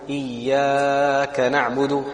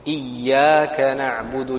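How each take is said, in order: First: The vowel after the Ya is drawn out. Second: The vowel after the Ya is held briefly. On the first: The speaker calls it wrong. "the other common mistake ... Incorrect" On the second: The speaker calls it right. "just one alif"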